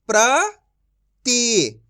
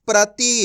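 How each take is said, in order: First: प्रति broken as "pra... ti", with a long pause; syllable by syllable. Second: प्रति joined as "prati"; blended whole word. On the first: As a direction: sound out प्रति very slowly in two parts. (प्रति को "प्र... ति" तोड़कर धीरे बोलें) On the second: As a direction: read प्रति in one go without a break. (प्रति को जोड़कर एक साथ बोलें) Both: Shown as a demonstration. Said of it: "direct मात्रा का उच्चारण करके पढ़ेंगे".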